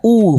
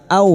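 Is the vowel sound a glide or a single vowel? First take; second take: single vowel; glide. First: The vowel is a single u sound. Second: The vowel glides from a to u. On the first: The speaker calls it right. "seperti bertemu dengan huruf abjad u" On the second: The speaker calls it wrong. "jangan dibaca au ya"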